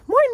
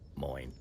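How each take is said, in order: First: The word is said bubbly and upbeat. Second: The word is said flat, in a monotone. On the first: It is an outsider's cheerful way to greet. "I'm very bubbly, very upbeat" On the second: It is the reserved local way to greet. "Notice there's it's very monotone"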